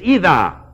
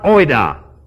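First: The word begins with a long 'ee' sound. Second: The word begins with the diphthong 'oi'. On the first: The speaker calls it right. "It's ida" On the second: The speaker calls it wrong. "It's not oida"

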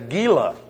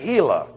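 First: The name is said with English sounds. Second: The name is said with Spanish sounds. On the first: The speaker calls it wrong. "That's why you don't say Gila" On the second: The speaker calls it right. "You say Gila, because you're pronouncing it as the Spanish"

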